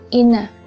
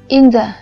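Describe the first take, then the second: First: The th sound merges into n, like inner. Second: The th sound is clearly pronounced after n.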